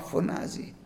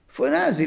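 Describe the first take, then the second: First: Φωνάζει breathed out as a soft whisper; hushed. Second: Φωνάζει lifted higher and voiced; emphatic repeat. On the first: Acted. Preacher hushes the word φωνάζει for the congregation. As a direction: whisper φωνάζει, letting it hang. Blood of Abel cries out. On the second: Preacher repeats Φωνάζει to the congregation, higher and stressed. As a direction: punch Φωνάζει out again, higher.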